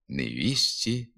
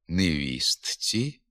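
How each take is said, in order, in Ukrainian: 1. Звук т випадає перед закінченням. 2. Звук т вимовляється перед закінченням. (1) "у вимові «невісті»" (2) "на письмі «невістці»"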